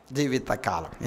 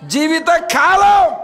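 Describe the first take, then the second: First: జీవితకాలం dropped low and much softer; quiet reverent echo of జీవితకాలం. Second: High, slow, loud shout of జీవితకాలం; preacher hammering జీవితకాలం home; shouted emphasis. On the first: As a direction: repeat జీవితకాలం gently, almost to yourself. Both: Shown as a demonstration. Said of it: "ఏ కాలం అంట?".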